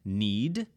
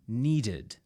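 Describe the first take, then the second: First: Said in the usual way. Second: Needed said as two syllables, nee-ded; extra syllable. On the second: Shown as a demonstration. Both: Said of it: "You add an extra syllable".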